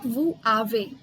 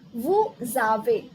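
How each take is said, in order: First: The s stays silent, with no link. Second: The s links to the vowel as z. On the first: The speaker calls it wrong. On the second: The speaker calls it right. "Similarly in this case also"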